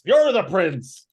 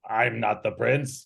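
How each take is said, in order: First: You're thrown out high and loud; insistent stress on You're. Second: Mildly puzzled echo in character; confused. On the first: Old Arthas corrects the supposed prince, You're punched high and loud. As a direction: hit "You're" high and loud, then drop. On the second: Old Arthas echoes the captive's denial, mildly confused. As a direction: repeat it back, a touch confused. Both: Acted. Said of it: "looks confused and he's like".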